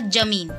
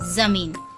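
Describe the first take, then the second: First: The word begins with a j sound. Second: The word begins with a z sound. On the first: The speaker calls it wrong. "ज के नीचे नुक्ता नहीं लगाएंगे तो उसका उच्चारण होगा जमीन, जो गलत है" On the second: The speaker calls it right. "और सही है जमीन"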